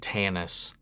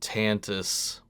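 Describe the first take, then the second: First: The middle T sound is dropped. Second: The middle T sound is pronounced. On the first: The speaker calls it wrong. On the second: The speaker calls it right.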